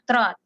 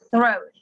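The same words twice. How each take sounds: First: The first sound has the tongue behind the teeth. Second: The first sound has the tongue between the teeth. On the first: The speaker calls it wrong. "not throat" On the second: The speaker calls it right. "lidahnya agak digigit"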